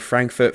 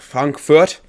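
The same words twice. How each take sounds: First: Frankfurt is said with an English pronunciation. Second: Frankfurt is said with a German pronunciation. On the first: The speaker calls it wrong. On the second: The speaker calls it right.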